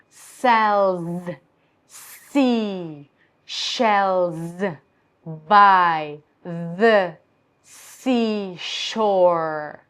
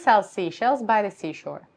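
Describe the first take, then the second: First: It is said slowly with exaggerated consonants. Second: It is said quickly with ordinary consonants. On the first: "I'm going to slow down and I'm going to really exaggerate every every consonant" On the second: "I'm going to try to say it quite fast"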